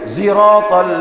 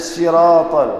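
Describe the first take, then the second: First: It begins with a buzzing z sound. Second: It begins with an emphatic, heavy s sound. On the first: This is a third dialect's accepted way to recite it. "Ada pakai zai" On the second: This is one dialect's accepted way to recite it. "ada siratal pakai sad"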